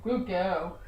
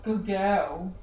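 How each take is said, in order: First: It is said in a low-pitched voice. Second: It is said in a low-pitched voice.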